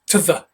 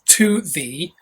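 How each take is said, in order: First: The vowels are reduced to a weak schwa. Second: The vowels are full and strongly pronounced. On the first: The speaker calls it right. "that's where the schwa comes up" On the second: The speaker calls it wrong.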